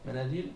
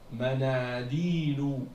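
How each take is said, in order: First: The long vowels are cut short and rushed. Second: The long vowels are fully held, unhurried. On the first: The speaker calls it wrong. "Tu peux pas dire manadil" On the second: The speaker calls it right. "il faut prononcer le alif et le ya"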